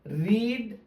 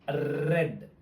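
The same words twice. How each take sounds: First: It is pronounced as the present tense form. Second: It is pronounced as the past tense form. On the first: The action happens now or habitually. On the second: The action happened in the past.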